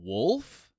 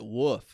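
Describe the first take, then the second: First: The word is said with an L sound. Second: The word is said without an L sound. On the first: This is how others corrected the speaker to say it. "do you mean wolf?" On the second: This is how the speaker said it growing up. "grew up calling it woof"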